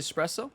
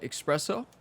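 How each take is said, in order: First: The word is said the textbook way. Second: The word is said the common everyday way. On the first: This is the technically correct pronunciation. "It's technically espresso" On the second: This is how many people actually say it. "a lot of us call it espresso"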